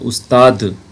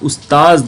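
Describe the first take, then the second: First: The word ends with a 'd' sound. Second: The word ends with a 'z' sound. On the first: This is the Urdu form. "Urdu में दाल के साथ होता है उस्ताद" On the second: This is the Arabic form. "ये अरबी में उस्ताज होता है दाल के साथ"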